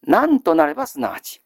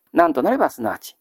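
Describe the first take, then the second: First: なんとなればすなわち read out deliberately, stressing なん; clear model reading. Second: なんとなればすなわちです rattled off fast and a little lower; quick lower repeat. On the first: Teacher to students giving the reading, deliberate and clear. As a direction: spell out なんとなればすなわち for the class. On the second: Teacher to students repeating the reading, quick and casual. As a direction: run through なんとなればすなわち quickly as a recap. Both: Shown as a demonstration. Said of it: "読み方は、".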